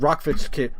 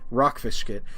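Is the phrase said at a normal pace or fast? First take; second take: fast; normal. First: The phrase is said very fast. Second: The phrase is said at a normal pace.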